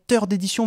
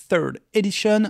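First: Third Edition said as French teur d'édition; French pronunciation. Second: Third Edition said with English th and sh; English pronunciation. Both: Shown as a demonstration. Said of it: "vous le prononcez comme vous voulez".

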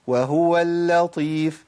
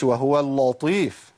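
First: Slow, easy وهو اللطيف with thin lam; light lam. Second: وهو اللطيف with thick, dark lam; wrong heavy lam. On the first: Teacher shows it without trouble, light lam. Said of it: "من غير ما أعمل مشاكل خالص". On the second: Teacher warns against this version, heavy lam. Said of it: "ما أقولش وهو اللطيف". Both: Shown as a demonstration.

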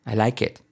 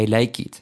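First: "I like it" with IT as 'et'; E vowel in IT; short i as E. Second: "I like it" with IT as 'eet'; long ee vowel in IT; faulty long i. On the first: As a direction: say 'I like et'. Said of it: "hacer una E". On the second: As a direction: mistaken 'I like eet'. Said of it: "Nada de". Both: Shown as a demonstration.

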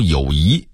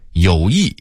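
First: 友谊 as yǒuyí; rising tone on 谊 in 友谊; Beijing reading. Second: Said in the usual way. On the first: Shown as a demonstration. Narrator contrasting word lists, Beijing reading. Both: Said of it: "北京话读友谊".

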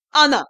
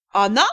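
First: Loud, triumphant announcement; solemn proclamation. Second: Low, tremulous question; trembling question. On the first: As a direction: proclaim it grandly and firmly. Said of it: "торжественно возвестил Юрао". (торжественное громкое провозглашение) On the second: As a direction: ask it with a trembling voice. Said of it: "дрожащим голосом вопросила первая". (вопрос дрожащим голосом) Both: A narrator's reading.

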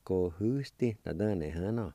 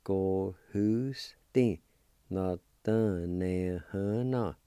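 First: Said in the usual way. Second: "Go who sti. Na dun ne hun na." drawn out slowly, stress on who; slow learner demo of "Go who sti" and "Na dun ne hun na"; very slow syllables. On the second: Shown as a demonstration. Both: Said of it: "And together".

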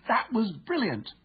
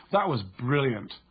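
First: "That was brilliant" pitched much higher and slow with delight; excited. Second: Slow, dry sarcastic "That was brilliant"; mock the team's failure with it; annoyed sarcasm. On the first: Teammate praising a great goal, thrilled. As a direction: cheer a fantastic goal. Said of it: "heard to say with excitement". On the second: Teammate quipping after a letdown, sarcastic. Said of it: "with a tonality that communicates annoyance". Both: Shown as a demonstration.

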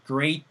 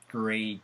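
First: "great" closed on a clear T; final T sounded. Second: "gray" with no final consonant; open ending. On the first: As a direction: stop "great" with the tongue behind the top teeth. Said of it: "야설이랑 달라야 돼요. 그 회색이랑". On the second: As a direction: leave "gray" open on the vowel. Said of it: "그 회색이랑". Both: Shown as a demonstration.

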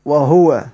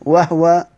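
First: وهو with a u on the هـ, "wa-hu-wa"; damma reading. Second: وهو with no vowel on the هـ, "wah-wa"; two syllables in وهو, closed on the h; sukun reading. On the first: Teacher corrects to the damma reading, وهو as wa-huwa. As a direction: give وهو three syllables, voicing "hu". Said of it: "قراءة بالضم". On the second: Teacher shows the iskan reading, وهو as wah-wa. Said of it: "من قرأ بال-، ال-، بالإسكان". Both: Shown as a demonstration.

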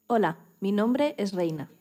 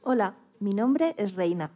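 The two takes are said the same way.

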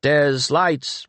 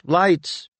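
First: Calling out. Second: Second call pitched higher and pressing; urgent call. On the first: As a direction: call for lights, raised and a little higher. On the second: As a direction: call again, climbing up in urgency. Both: A narrator's reading. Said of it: "Penrick's voice out of the shadows called".

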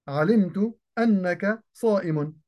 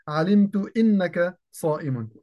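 First: أنك said with open hamza, "annaka"; correct fatha on anna. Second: إنك said with broken hamza, "innaka", as the error; wrong kasra on inna. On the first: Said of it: "فهنا أن وما بعدها تؤول بمصدر". (أنك بفتح الهمزة) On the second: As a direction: demonstrate the mistake by reading إنك as "innaka". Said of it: "فلا يصح أن أقول". (إنك بكسر الهمزة خطأً) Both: Shown as a demonstration.

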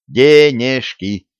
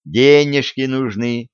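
First: Slow, syllable by syllable; Денежки spelled out in separate beats; staccato. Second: Said in the usual way. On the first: A narrator's reading. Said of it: "По слогам отчеканил". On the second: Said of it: "Могу сказать ещё доходчивее".

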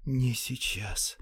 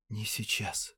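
First: Slow drawn-out whisper. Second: Whispered. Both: A narrator's reading. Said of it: "прошептал он".

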